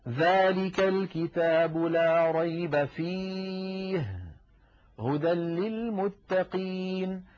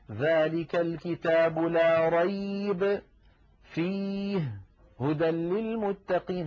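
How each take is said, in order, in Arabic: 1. يوجد وقف بعد كلمة fihi. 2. يوجد وقف قبل fihi وبعدها. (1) "لا ريب فيه، فصارت كلمة فيه متعلقة بجملة لا ريب" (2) "هذا لا يصح"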